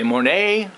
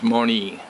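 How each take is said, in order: First: The name ends with an 'ay' sound. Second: The name ends with an 'ee' sound. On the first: The speaker calls it wrong. "If you say Monet, you will be murdered" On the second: The speaker calls it right. "The actual pronunciation is Moni"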